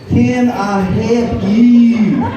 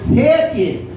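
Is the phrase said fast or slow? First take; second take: slow; fast. First: The phrase is said slowly and clearly. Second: The phrase is run together very fast.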